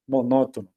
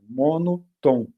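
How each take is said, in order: First: Said in the usual way. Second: MONOTOM slowly split as MONO, TOM; split into parts. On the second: Shown as a demonstration. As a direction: break monotom in two, landing separately on TOM. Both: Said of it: "Olha a origem da palavra".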